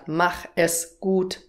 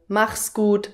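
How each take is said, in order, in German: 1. 'Es' wird als eigenes Wort gesprochen. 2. 'Es' wird mit 'mach' verschmolzen. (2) "statt mach es gut"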